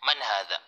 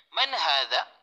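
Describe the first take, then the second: First: "Man hadha?" said flat, falling, with no questioning rise. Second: "Man hadha?" rising at the end like a real question; questioning tune. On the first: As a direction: drop the tune at the end of "Man hadha?". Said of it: "mali kapag sasabihin natin". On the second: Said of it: "kailangan patanong din po yung tono". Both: Shown as a demonstration.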